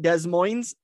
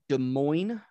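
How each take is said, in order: First: The final s in Moines is pronounced. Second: The final s in Moines is silent. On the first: The speaker calls it wrong. "I can't stand it when people call it Des Moines" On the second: The speaker calls it right. "I just want to note, I said Des Moines"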